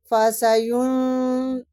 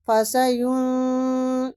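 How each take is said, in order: First: فسیون with the nun sounded fully, no nasal hiding; izhar. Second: فسیون with the nun hidden in nasal ghunna; ikhfa. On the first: Teacher recites فسیون with correct izhar, nun clearly pronounced. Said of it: "فسیون تو یہ اخفا ہو جاتا ہے". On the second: Teacher shows the wrong ikhfa take of فسیون, nun hidden nasally. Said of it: "تو یہ اخفا ہو جاتا ہے". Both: Shown as a demonstration.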